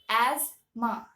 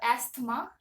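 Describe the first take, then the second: First: The th sound in the middle is silent. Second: The th sound in the middle is pronounced. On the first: The speaker calls it right. "the actual pronunciation of this word is asthma" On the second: The speaker calls it wrong. "the spelling of this word is A S T H M E, which would make it as uh, asthma"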